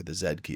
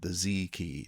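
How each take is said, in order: First: Z said as "zed", ending in a d; Canadian zed. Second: Z said as "zee"; American zee. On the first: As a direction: say Z to rhyme with "bed". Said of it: "as we say in Canada". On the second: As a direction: say Z to rhyme with "key". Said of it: "sorry, the Z key, as we say in Canada". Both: Shown as a demonstration.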